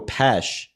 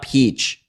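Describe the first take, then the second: First: The vowel is short, like in 'mesh'. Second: The vowel is long, like in 'peach'. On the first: The speaker calls it right. "Pesh, not peach" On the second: The speaker calls it wrong. "not peach"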